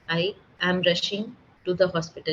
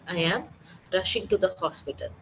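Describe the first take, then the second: First: The words are split apart with odd breaks. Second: The words are grouped smoothly without odd breaks.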